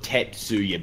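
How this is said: The name is said with an American pronunciation. The speaker calls it wrong. "not not Tetsuya, but that's how Americans say it"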